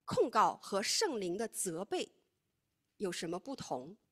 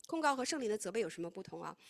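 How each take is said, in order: First: Deliberate teacher's slow setup of 控告和圣灵的责备; slow emphatic question. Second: Said in the usual way. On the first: Shown as a demonstration. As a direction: spell out 控告和圣灵的责备 slowly, rising on 控.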